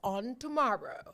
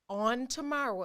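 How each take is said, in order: First: It is said in a dramatic preacher-style voice. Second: It is said in an ordinary speaking voice.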